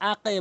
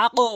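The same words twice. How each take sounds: First: আকে with the bounce thinned to "e"; mistaken qalqalah. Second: আকো bounced upward to a rounded "o"; correct qalqalah. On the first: Teacher warning learners what not to say, আকে with "e". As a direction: say আকে ending in a wrong "e" echo. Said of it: "আকে বলতে পারবেন না". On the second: Teacher showing learners the required form, আকো with "o" bounce. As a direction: say আকো with a heavy "o" echo on the q. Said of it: "আকো বলতে হবে". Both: Shown as a demonstration.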